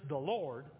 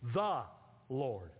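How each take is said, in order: First: The stress falls on the word Lord. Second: The stress falls on the word the. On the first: It is an ordinary title. "my name is not just the Lord" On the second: It is a unique, singular title. "my name is the Lord"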